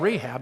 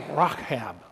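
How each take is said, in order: First: The middle consonant is a plain soft h. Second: The middle consonant is a rough throaty ch. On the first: This is the familiar form of the name. The speaker calls it wrong. "It's not Rahab" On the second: This is the Greek form of the name. The speaker calls it right. "in Greek that's kind of a rach sound"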